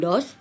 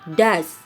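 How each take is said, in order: First: The vowel is a rounded 'o' sound. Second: The vowel is a short 'uh' sound. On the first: The speaker calls it wrong. "bukan dos" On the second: The speaker calls it right. "Bacanya does ya"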